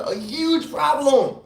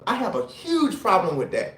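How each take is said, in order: First: "a huge problem" drawn out slowly, each word weighted; slowed right down to stress "huge problem". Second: Said in the usual way. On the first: Shown as a demonstration. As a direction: lean hard on "huge problem", take it slow. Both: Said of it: "When I say a huge pro".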